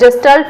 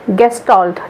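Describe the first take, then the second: First: The word begins with a soft j sound. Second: The word begins with a hard g sound. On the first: "इसको मैंने जेस्टल्ट पढ़ा है" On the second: "वैसे इसका pronunciation गेस्टॉल्ट है"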